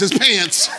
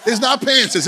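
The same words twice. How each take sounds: First: "pants" as one syllable, crisp final ts; one clean syllable on "pants"; corrected pronunciation. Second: "pantses" in two syllables, high pitched; high, with the extra syllable on "pantses"; wrong form cited. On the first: Preacher correcting congregation, standard pronunciation. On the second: Preacher correcting congregation, citing the wrong pronunciation. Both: Shown as a demonstration.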